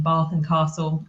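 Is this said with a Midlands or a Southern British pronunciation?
Southern. It is said with a Southern British pronunciation. This is the form the speaker does not use. "rather than Bath and Castle"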